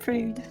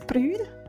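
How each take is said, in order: First: The word is said in an Australian accent. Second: The word is said in a Scottish accent. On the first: "With an Australian accent" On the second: "the Scottish one is prude"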